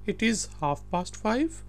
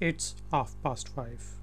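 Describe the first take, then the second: First: It is said as two full words. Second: It is said as one contracted word.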